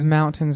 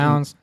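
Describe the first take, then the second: First: The T in the middle is clearly pronounced. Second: The T in the middle is dropped. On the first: "You did not drop your T" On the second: "I always say"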